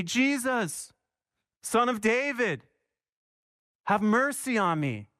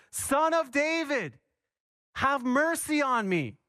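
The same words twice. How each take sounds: First: Imitating a blind man's cry, slightly raised; mild retold shout. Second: More insistent cry. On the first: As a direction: call out to Jesus, pitched up but restrained. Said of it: "he began to shout". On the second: Retold or imitated. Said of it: "he cried out even more loudly".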